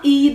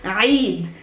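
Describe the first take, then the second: First: It begins with a plain vowel sound. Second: It begins with a choked throat sound. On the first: The speaker calls it wrong. "It's not Eid, no, no, no" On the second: The speaker calls it right. "it's the letter Ain again"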